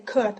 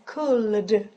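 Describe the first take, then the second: First: The L sound is silent. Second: The L sound is pronounced. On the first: The speaker calls it right. "So you just say could" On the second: The speaker calls it wrong. "You don't really have to say could because it's weird"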